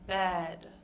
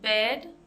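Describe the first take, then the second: First: The vowel is more relaxed and open. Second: The vowel is closed and tense, like Spanish 'e'. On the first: The speaker calls it right. "A little more relaxed, a little more open" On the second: The speaker calls it wrong. "It's not as closed as the Spanish E sound"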